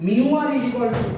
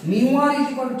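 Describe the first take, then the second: First: Mu r is equal to, drawn out word by word; slow dictation. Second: Said in the usual way. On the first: Shown as a demonstration. Teacher dictating the formula to students, slowly. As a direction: spell out "mu r is equal to" slowly so they can write. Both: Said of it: "ছোট্ট করে লিখে দিচ্ছি দেখো".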